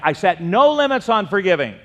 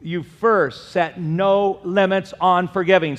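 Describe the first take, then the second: First: Loud repeat with stress on "no"; congregation repeat. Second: Slow, loud, stressed on "on"; preaching emphasis. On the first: Preacher leading the crowd to repeat, stressing "no". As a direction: hit "no" hard in "I set no limits". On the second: Preacher stressing "on" to the congregation. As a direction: lay weight on "on" in "no limits on forgiving". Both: Shown as a demonstration. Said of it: "Say that".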